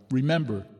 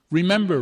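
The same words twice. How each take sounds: First: Said in the usual way. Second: High ringing call to the mourners; rally the crowd with one rousing word; exhorting. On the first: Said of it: "Here he became serious". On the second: A narrator's reading. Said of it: "Rev two exhorted from the lectern".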